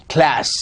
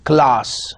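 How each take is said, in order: First: American "class" with a flat short a, /klæs/; General American. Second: RP "class" with a long broad ah, said slowly; British RP. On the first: Teacher modelling American "class" in class. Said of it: "General American". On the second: Teacher slowly modelling RP "class". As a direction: stretch out the British "class", klahs. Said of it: "R P, class". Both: Shown as a demonstration.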